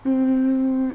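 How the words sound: It is a soft, non-nasal hum.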